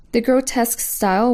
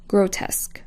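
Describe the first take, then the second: First: Said in the usual way. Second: Soft whispered grotesque. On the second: Shown as a demonstration. Course teacher naming the first sans serif group, whispered.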